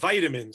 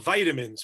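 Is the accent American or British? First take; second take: American; American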